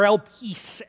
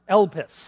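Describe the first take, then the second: First: The last syllable has a long vowel, like 'peace'. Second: The last syllable has a short vowel, like 'kiss'. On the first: The speaker calls it right. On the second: The speaker calls it wrong.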